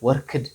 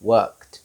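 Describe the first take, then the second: First: The ending is said as an extra 'id' syllable. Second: The ending is said as a short 't' sound. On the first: The speaker calls it wrong. "Not worked" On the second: The speaker calls it right. "T sound"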